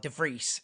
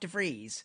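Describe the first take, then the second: First: The name is said in its native way. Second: The name is said in an anglicized way.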